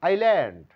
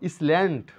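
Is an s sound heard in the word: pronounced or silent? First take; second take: silent; pronounced. First: The s sound is silent. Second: The s sound is pronounced. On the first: The speaker calls it right. "এস লেটারের কোনো sound নাই" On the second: The speaker calls it wrong. "কিন্তু ইসল্যান্ড না"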